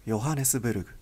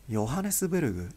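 The two takes are said the same way.

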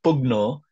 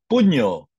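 First: Pugno with a hard g, said as written; pugno, sounding the g before the n; wrong pronunciation. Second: Puño, the gn said like Spanish ñ, louder; correct pronunciation. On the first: Teacher showing students the wrong reading, pugno with hard g. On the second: Teacher correcting students, puño said with ny sound. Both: Shown as a demonstration. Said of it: "It's not pugno".

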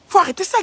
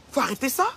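First: Higher and louder repeat, punching faut; exasperated order to stop; louder insistence. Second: Said in the usual way. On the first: Real, not acted. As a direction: raise it sharply on the repeat. Rant at Guylaine, repeated louder.

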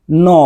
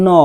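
First: No said flat, with a pure o; no clipped, Bangla-style; wrong no. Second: No gliding to "nou"; correct no. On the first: Teacher showing the no to avoid. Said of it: "আর no বলা যাবে না". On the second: Teacher modeling the right no. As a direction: let no glide to "ou". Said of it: "তাহলে N তো আর N". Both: Shown as a demonstration.

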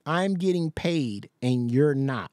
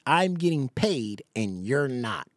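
First: Slow, mocking echo of her taunt; mocking repeat. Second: Slow and lower, deadpan mock; mocking repeat, lower. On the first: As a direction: drag it out to mock her. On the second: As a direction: flatten it lower to ridicule.

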